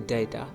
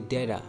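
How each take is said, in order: First: The middle t is a clear, hard t. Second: The middle t sounds like a soft d. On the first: The speaker calls it wrong. "Not say data" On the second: The speaker calls it right. "say data"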